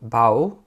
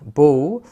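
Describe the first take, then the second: First: The vowel sounds like the one in 'cow'. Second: The vowel sounds like the one in 'go'. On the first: It means to bend forward in greeting. "절하다는 bow" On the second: It means a weapon for shooting arrows. "활은 bow"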